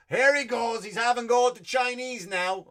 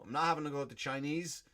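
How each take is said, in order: First: Loud, high put-on voice of a scolding critic; mock heckler. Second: Said in the usual way. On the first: Comic voicing a critic who accuses him, loud mock scolding. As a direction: play the finger-pointing critic who caught him out.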